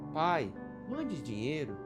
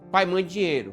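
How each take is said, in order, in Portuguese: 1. É dito num tom suave e suplicante. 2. É dito num tom seco e exigente. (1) "não, ele não disse assim. Ele disse foi assim" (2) "tem jeito esse teu filho. Olha aqui como é que ele diz"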